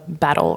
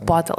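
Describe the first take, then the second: First: The first vowel sounds like in 'bat'. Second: The first vowel sounds like in 'bottle'. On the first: "Stand Up Battle Club. Sorry" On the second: "in Ukraine they always pronounce it as bottle"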